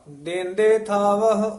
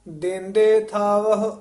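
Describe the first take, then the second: The two takes are said the same way.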